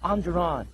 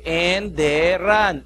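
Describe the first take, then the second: First: It begins with 'ah' and has two syllables. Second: It begins with 'eh' and has three syllables. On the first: The name is said the school's own, affected way. "No, it's Andron" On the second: The name is read plainly as it is spelled. "Sabi ko, Enderan"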